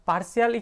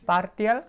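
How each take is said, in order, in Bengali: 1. মাঝের ব্যঞ্জনটি 'sh' ধ্বনি। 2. মাঝের ব্যঞ্জনটি 't' ধ্বনি।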